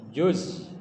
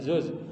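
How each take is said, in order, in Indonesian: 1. Kata ini dimulai dengan bunyi j. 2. Kata ini dimulai dengan bunyi z. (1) "salah lagi baca" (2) "bukan zuz"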